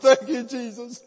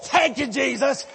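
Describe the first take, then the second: First: It is said in a weak, tearful voice. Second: It is said in a strong, joyful voice.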